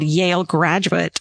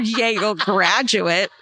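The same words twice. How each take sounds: First: It is said with little or no disdain. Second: It is said with heavy, mocking disdain.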